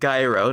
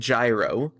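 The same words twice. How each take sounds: First: It starts with a hard g sound. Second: It starts with a j sound. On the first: "Not a g like gyro" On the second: "not a j like gyro"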